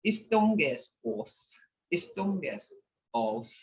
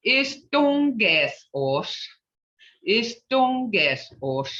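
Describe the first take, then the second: First: Istongesos soft, without the Muskogee sh; flat English-style Istongesos; teacher imitating learners without the Muskogee sound; English-type pronunciation. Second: Istongesos slow, ending in a clear sh; teacher modelling the right sound; proper Muskogee sounds. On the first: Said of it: "I've heard some people speak like". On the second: Shown as a demonstration. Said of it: "But if we spoke it in a English type".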